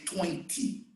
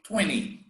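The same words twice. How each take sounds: First: The t in the middle is clearly pronounced. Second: The t in the middle is dropped. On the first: This is how it is said in England. "in England they say twenty" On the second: This is how it is said in the United States. "In the United States they say twenty. They don't pronounce the T"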